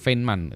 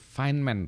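First: The name is read out letter by letter. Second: The name has its English pronunciation. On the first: The speaker calls it wrong. "Kalau saya dulu Feynman" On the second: The speaker calls it right. "itu Feynman"

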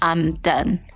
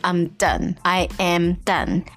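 First: I and am are joined into one syllable. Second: I and am are said as separate words.

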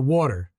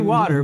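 First: It is said in a New Jersey accent. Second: It is said in a neutral accent.

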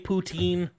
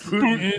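First: It is said the American way, ending in 'teen'. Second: It sounds like the Russian president's name. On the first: "the American way" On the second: "Did you just name it after the Russian president?"

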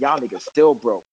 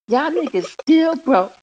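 First: It is said in a flat, monotone voice. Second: It is said in a cute, lively, childlike way. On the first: "now she got a little monotone in the voice" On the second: "It was cute when it was like that"

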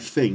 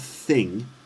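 First: It begins with an f sound. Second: It begins with a th sound. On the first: "a Cockney accent... It's like f, like an F sound" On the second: "not thing with your tongue between your teeth"

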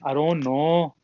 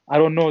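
First: Said in a northern accent with drawn-out vowels. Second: Said in a plain accent with normal vowels. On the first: "everything was sort of extended" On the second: "if you want to say I don't know"

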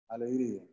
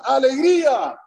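First: It is said softly without force. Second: It is said loudly with strong force.

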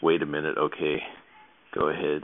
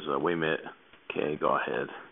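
First: It is said in a standard, fully pronounced way. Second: It is said in a clipped Baltimore accent. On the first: "So that's" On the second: "That's my impression of my mother. My family's from Baltimore"

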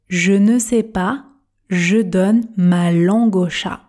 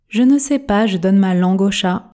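First: The phrase is spoken very slowly and carefully. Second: The phrase is spoken at a normal speed. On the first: "Vitesse tortue" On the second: "Version normale"

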